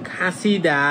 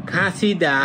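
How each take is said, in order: No difference in how they are said.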